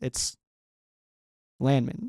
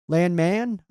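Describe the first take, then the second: First: The last syllable is reduced to 'min'. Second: The last syllable has a full 'man' vowel. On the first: "whenever it's a last name, it's Min" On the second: "I hear Landman pronounced, by the way, by a lot of the Rams staff"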